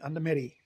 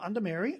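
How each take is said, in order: First: The second word sounds like 'Medi'. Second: The second word sounds like 'Mary'. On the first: The speaker calls it right. "I pronounced it right" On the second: The speaker calls it wrong. "not Under Mary"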